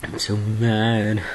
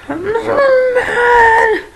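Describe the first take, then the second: First: Said in the usual way. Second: Very slow, high, loud screech; mock mad scream. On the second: Vlogger repeating how mad they are, screeched mock rage. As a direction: stretch it into a hammed-up furious squeal.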